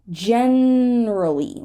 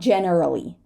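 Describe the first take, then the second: First: One syllable of the word is dropped. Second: Every syllable of the word is pronounced. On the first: The speaker calls it right. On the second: The speaker calls it wrong.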